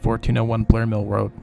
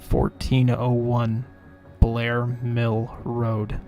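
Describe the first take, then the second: First: The address is spoken at a normal pace. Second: The address is spoken more slowly.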